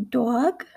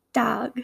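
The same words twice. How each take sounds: First: "dog" with a rounded "dwawg" vowel; East Coast pronunciation. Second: "dog" with an open "ah" vowel; Midwestern pronunciation. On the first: Teacher contrasting accents, "dog" said East Coast as "dwawg". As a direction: say "dog" as "dawg". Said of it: "in an East Coast accent". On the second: Teacher contrasting accents, "dog" said Midwestern as "dahg". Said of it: "in my Midwestern accent". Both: Shown as a demonstration.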